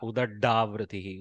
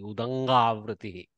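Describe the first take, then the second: First: The consonant after the first vowel is 'd'. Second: The consonant after the first vowel is 'ng'. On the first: The speaker calls it wrong. "Never read this like da. ... it is not" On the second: The speaker calls it right. "Huge difference between dakara and ngakara"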